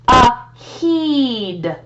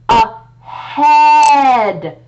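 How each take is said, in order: First: The second vowel is a long 'ee' sound. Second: The second vowel is a short 'eh' sound. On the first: The speaker calls it wrong. "let's try that with a long E" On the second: The speaker calls it right. "it's got that short E sound"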